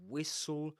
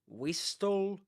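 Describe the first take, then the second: First: The t sound is silent. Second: The t sound is clearly pronounced. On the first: The speaker calls it right. "You say whistle" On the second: The speaker calls it wrong. "you don't say whistle"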